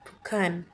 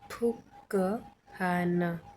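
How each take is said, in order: First: The k and h merge into an aspirated kh. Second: A k sound is followed by a separate h. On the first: "तो क्या बोलेंगे हम फुखान" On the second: "पहले है एग्जाम्पल फुक हान"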